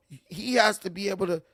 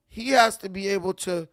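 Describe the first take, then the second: No difference in how they are said.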